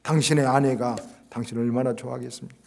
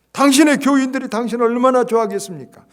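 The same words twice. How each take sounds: First: Said in the usual way. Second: "당신의" hit loud and much higher, falling to the end; preached loudly. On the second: Acted. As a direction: belt out "당신의" and ride the line down.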